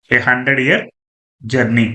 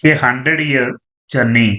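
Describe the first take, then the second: No difference in how they are said.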